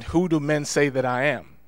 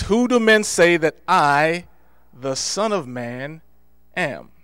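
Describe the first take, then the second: First: Said in the usual way. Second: Who do men say that I, the Son of Man, am? said slowly, with the Son of Man set apart by pauses; slow, drawn-out question. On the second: Shown as a demonstration. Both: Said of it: "Why didn't he just ask the question".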